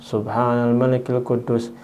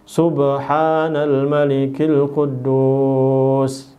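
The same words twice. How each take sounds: First: It is said at normal loudness and length. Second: It is said loudly with drawn-out vowels.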